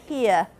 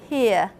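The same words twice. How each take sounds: No difference in how they are said.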